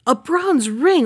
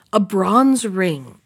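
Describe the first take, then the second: First: Incredulous servant. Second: Put-on sly old peddler. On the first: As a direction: throw A bronze ring back high and disbelieving. Servant scoffs at the price. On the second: Peddler names his price. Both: A narrator's reading.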